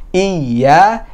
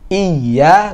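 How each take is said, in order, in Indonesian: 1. Vokal pembukanya pendek, huruf y-nya ditekan. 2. Vokal pembukanya pendek, huruf y-nya ditekan.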